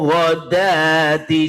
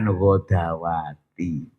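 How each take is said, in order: First: The word has three syllables. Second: The word has four syllables. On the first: The speaker calls it right. "dalnya dibaca pendek" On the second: The speaker calls it wrong. "bukan ghodawati"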